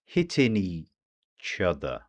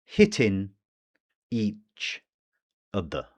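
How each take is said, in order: First: Slow "Hitting each other" run together as one word; "Hitting each other" slowed down but fully linked. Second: "Hitting" "each" "other" said as three separate words with gaps; "Hitting each other" unlinked, a pause after each word; words separated. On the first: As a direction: glide "Hitting each other" into a single stream. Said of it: "One word, or so it seems". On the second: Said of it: "there's the catenation". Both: Shown as a demonstration.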